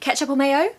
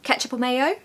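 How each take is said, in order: No difference in how they are said.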